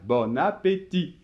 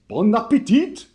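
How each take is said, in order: First: The final T of appétit is silent. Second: The final T of appétit is pronounced. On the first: It is how French speakers say it. The speaker calls it right. "sans prononcer le T final" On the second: It imitates how foreigners say it. The speaker calls it wrong. "souvent quand on imite les étrangers"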